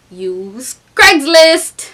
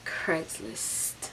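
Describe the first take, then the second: First: CRAIGSLIST punched after a drawn-out "use"; dramatic reveal. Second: Whispered CRAIGSLIST; barely-there whispered aside; hushed echo. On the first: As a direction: slowly build up to CRAIGSLIST, then land it hard. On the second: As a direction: whisper it for dramatic effect. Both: Real, not acted.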